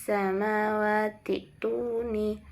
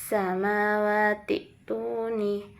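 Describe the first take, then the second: The two takes are said the same way.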